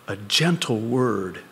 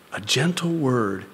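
Both takes have the same delivery.

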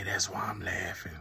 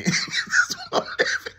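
First: Said in the usual way. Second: High and loud, squeezed out through laughter; cracking up on every word; laughing. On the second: Real, not acted.

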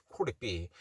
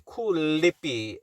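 First: "could it be" with the D and T as a light R, softly; flapped R sound. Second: "could it be" drawn out with an L in place of the flapped sound; L sound demo. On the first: Teacher modelling the R sound in "could it be", lightly flapped. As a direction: say "could it be" with R-like flaps, no L. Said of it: "L 발음을 내는 게 아니라 R 발음". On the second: Teacher showing the L to avoid in "could it be", mispronounced. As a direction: say "could it be" slowly, wrongly using an L. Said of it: "L 발음을 내는 게 아니라". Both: Shown as a demonstration.

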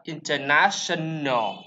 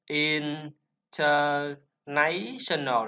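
First: "international" slowly as IN-ter-na-shun-al, first syllable stressed, falling end; careful correct "international", IN-ter-na-shun-al; teacher models the right "international" with stress on IN; correct pronunciation. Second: "international" dragged out very slowly, in-ter-NA-tion-al, as the common mistake; slow, deliberate wrong reading of "international", stress on NA; mock-model the wrong "international", drawn out with stress on NA; wrong pronunciation shown. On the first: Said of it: "L là phổ âm, em xuống". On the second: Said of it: "chúng ta không phải đọc là".

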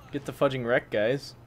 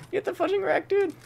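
First: Said in the usual way. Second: A gleeful high-pitched jeer at the enemy; squeaky taunt. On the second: Real, not acted. Streamer taunting a downed enemy, high mocking squeak. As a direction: jump way higher into a mocking squeak.

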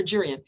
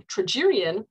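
First: "Tragerian" with an r sound, first syllable restarted; mispronounced name. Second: "tragedian" with a clear d, after false starts; corrected name. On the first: Speaker checks her pronunciation aloud, "Tragerian" with an r. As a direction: try "Tr-, Tragerian" with a false start and an r. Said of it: "I think it's pronounced right". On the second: Speaker corrects herself to "tragedian" with a careful d. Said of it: "And the tra-, tra". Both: Real, not acted.

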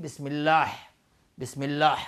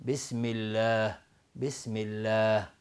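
First: «الله» ending in raspy ḥ; wrong final ha. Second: Slow «الله» ending in soft h; correct final ha. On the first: Teacher gives example of ha misread, wrong final ha. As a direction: push a mid-throat ḥ at the end of «الله». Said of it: "مانند ها تلفظ بکنیم". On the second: Teacher shows what we actually have, correct final ha. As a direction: let «الله» fade on a light breath of h. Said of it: "در حالی که ما داریم". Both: Shown as a demonstration.

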